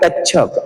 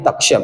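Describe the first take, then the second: First: The middle sound is a plain 's'. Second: The middle sound is the cluster 'ksh'. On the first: This is the Pali form of the name. "पाली शब्द आहे" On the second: This is the Sanskrit form of the name. "संस्कारित आहे"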